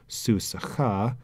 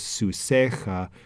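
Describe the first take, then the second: First: The stress is on the last syllable. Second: The stress is on the second-to-last syllable. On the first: It is the ordinary form inside a clause. "last syllable is accented" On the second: It is the pausal form at the end of a clause. "second to last syllable is accented"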